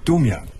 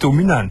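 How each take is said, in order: First: The name has no extra n sound inside. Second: The name has an extra n sound inside. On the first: The speaker calls it right. "einfach ganz normal Domian" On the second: The speaker calls it wrong. "Nee, nicht Dominan"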